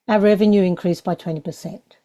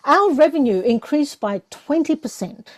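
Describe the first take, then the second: First: It is said flat, with little energy. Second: It is said with lift and energy.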